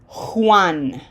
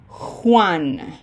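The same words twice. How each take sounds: First: It begins with a strong, harsh H sound. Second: The same.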